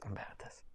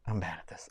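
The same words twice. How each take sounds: First: Barely voiced whisper; whispered to self. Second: Softer, fading mumble; trailing off quietly. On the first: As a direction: breathe it out, almost silent. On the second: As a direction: let it fall away under your breath. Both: Real, not acted.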